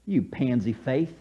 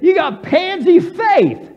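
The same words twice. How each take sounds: First: Low, soft, deliberate dig; understated rebuke. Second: High, loud, drawn-out scolding; shouted rebuke. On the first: Preacher rewording Jesus' rebuke to Peter, quiet chiding. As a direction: say it softly and lower. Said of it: "This is how I would say it". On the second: Jesus rebuking Peter for doubting, exasperated shout. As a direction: shout the reproach at him. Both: Acted.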